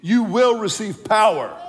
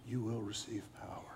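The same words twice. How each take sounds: First: It sounds strong and convinced. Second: It sounds weak and half-hearted.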